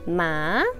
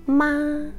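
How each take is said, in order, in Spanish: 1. La sílaba se dice con tono ascendente. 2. La sílaba se dice con tono alto y nivel. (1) "en un tono como ascendente, como de pregunta" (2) "En un tono agudo"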